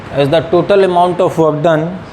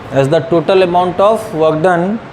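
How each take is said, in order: Both takes have the same delivery.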